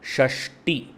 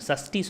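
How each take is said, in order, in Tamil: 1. இந்த வார்த்தை sh ஒலியில் தொடங்குகிறது. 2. இந்த வார்த்தை சாதாரண s ஒலியில் தொடங்குகிறது. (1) "நம்ம என்ன சொல்லுவோம்" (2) "சொல்ல மாட்டோம்"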